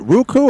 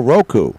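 First: "Roku" with first syllable like "rue"; pronunciation ROO-koo. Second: "Roku" with first syllable like "row"; pronunciation ROH-koo. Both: Shown as a demonstration. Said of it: "I don't know if I say it".

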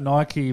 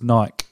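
First: Nike said "NY-kee"; Nike with two syllables. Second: Nike said "nyke", rhyming with bike; Nike as one syllable. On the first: Offering co-host both versions, Nike as "NY-kee". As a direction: say Nike with an ee ending. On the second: Offering co-host both versions, Nike as "nyke". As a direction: drop the ee from Nike. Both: Shown as a demonstration. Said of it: "Nike versus Nike".

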